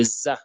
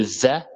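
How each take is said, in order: First: "za" with a buzzing French Z; French Z sound. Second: "za" with the tongue between the teeth. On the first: Teacher contrasting two confusable letters, "za" with plain Z. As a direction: say "za" with the tongue behind the teeth, as French Z. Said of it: "comme le Z en français". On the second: Teacher warning learners about a confusable letter, interdental "za". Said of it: "on met la langue entre les dents". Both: Shown as a demonstration.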